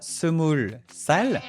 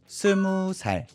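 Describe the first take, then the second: First: The number ends with an l sound. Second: The number ends on a vowel, no l sound. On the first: The speaker calls it wrong. "on dira pas 스물 살" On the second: The speaker calls it right. "on dira plutôt 스무 살"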